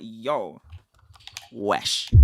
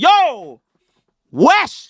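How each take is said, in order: First: Low, soft yo wesh, grossed out; disgusted wesh. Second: High, loud yo wesh in shock; surprised wesh. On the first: Teaching cohost slang, demoing a low disgusted wesh. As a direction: wince at something nasty. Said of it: "If someone does something disgusting". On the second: Teaching cohost slang, demoing a shocked loud wesh. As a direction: exclaim at a surprise. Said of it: "If something surprising". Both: Shown as a demonstration.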